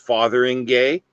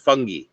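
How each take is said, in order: First: The name is said fully, as it is spelled. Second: The name is said shortened, like 'fungi'. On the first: "if you pronounce it the way it's spelled" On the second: "apparently the pronunciation is"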